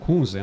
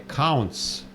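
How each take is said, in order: First: The name is said with a z sound. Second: The name is said with a ts sound. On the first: This is how everyone in Brazil says the name. "no Brasil todo mundo fala Kunze, Kunze" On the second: This is how the name is said in German. "uma vez eu encontrei um alemão, ele falou não é Kunze, é Counts"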